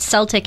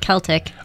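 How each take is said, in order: First: The word begins with a soft 's' sound. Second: The word begins with a hard 'k' sound. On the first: It names the basketball team. The speaker calls it wrong. "you said Celtic" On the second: It names the music tradition. The speaker calls it right. "instead of Celtic"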